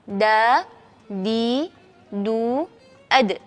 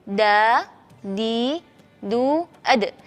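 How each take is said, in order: Both takes have the same delivery.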